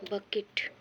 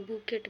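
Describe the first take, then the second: First: "बकेट" with a short uh vowel; correct pronunciation. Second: "बुकेट" with an oo vowel; wrong oo sound in "बुकेट"; mispronounced bucket. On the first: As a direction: say "बकेट" as buh-ket. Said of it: "एकर सही उच्चारण हो बकेट". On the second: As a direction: say "बुकेट" the wrong way, boo-ket. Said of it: "क्योंकि बुकेट भी पढ़ल". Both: Shown as a demonstration.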